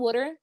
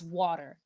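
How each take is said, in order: First: It is said in a Philadelphia accent. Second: It is said in a standard accent. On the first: The speaker calls it wrong. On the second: The speaker calls it right.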